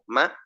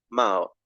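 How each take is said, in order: First: The pitch stays at a middle level. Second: The pitch is low. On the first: "me dejo en un sonido intermedio" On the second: "me voy a uno bajo, a uno más grave"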